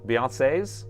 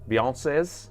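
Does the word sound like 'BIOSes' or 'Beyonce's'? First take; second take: Beyonce's; Beyonce's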